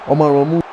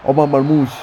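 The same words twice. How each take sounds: The two takes are said the same way.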